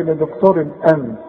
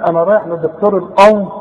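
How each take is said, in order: First: "الأنف" with thin, front "a" at the start; light hamza. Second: "الأنف" rounded and thick, like "onf"; wrong heavy hamza. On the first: Teacher gives pupil memory aid, light hamza. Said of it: "الهمزة ترقق". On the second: Teacher mimics going to nose doctor wrongly, heavy hamza. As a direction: say "الأنف" with a heavy back vowel. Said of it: "هتقول". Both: Shown as a demonstration.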